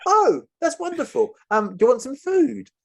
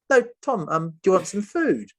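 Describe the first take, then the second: First: High, cheery mock host offering food; cheery captor. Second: High, insistent repeat of the offer; insistent captor. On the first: Captor offering the hostages food, high and cheery. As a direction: chirp the offer like an overfriendly host. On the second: Retold or imitated. Captor insisting Tom stay for food, high and pushy. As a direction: press the food offer again, pitched up.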